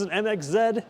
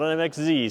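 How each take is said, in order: First: The final letter is said the Canadian way, zed. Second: The final letter is said the American way, zee. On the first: It follows the local Canadian usage. The speaker calls it right. "because we're in Canada" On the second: It follows usage from outside Canada. The speaker calls it wrong.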